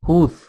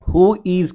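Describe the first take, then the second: First: One short word, with 'is' reduced to 's'. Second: Two separate words, with 'is' said in full.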